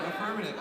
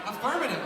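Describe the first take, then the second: First: Said in the usual way. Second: Curt soldier reply; mock military echo.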